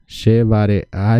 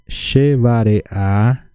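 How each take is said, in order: First: Said in the usual way. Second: "she vare a" stretched very slowly, each syllable separate; slow syllable-by-syllable model. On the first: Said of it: "repeating at near-normal pace". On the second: Shown as a demonstration. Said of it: "drilling the phrase twice".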